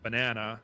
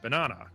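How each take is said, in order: First: It is said in an American accent. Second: It is said in a British accent. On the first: "in America they would say" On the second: "the U K they would say"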